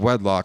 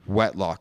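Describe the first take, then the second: First: The middle consonant is a D sound. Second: The middle consonant is a T sound. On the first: The speaker calls it right. "Instead of wedlock" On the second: The speaker calls it wrong. "I say wetlock sometimes"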